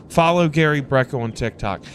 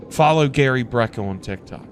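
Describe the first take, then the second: No difference in how they are said.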